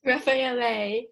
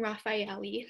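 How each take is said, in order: First: Raffaele ending in "ay", "rah-fah-EL-ay"; corrected pronunciation. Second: Raffaele ending in "ee", "rah-fye-EL-ee"; unsure pronunciation. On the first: Shown as a demonstration. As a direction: echo Raffaele with final e as ay. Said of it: "it's Raffaele". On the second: Real, not acted. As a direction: end Raffaele on an ee sound. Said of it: "I don't know how to say his name".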